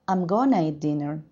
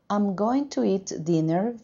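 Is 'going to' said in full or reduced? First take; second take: reduced; full. First: The words 'going to' are reduced to 'gonna'. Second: The words 'going to' are said in full. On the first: "becomes I'm gonna eat dinner" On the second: "I'm going to eat dinner becomes"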